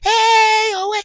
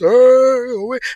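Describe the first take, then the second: First: It is said in a higher voice. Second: It is said in a deep voice.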